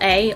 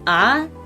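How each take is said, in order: First: The letter is said with an 'ay' sound. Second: The letter is said with an 'ah' sound. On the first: "whether to to pronounce the word A, not the word, the letter A as well A" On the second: "in my Russian brain it's always ah"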